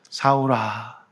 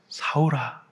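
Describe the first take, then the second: First: The name is said in a kind, gentle voice. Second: The name is said in a kind, gentle voice.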